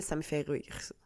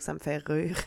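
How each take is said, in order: First: Casual Quebec French rire; ça me fait rire in a relaxed Québécois accent; broad Quebec pronunciation of ça me fait rire. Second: Ça me fait rire redone in a neutral French accent; more standard French. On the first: Real, not acted. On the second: Shown as a demonstration. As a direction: rire said carefully without the Quebec accent. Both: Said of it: "je l'ai dit avec mon accent de Québec".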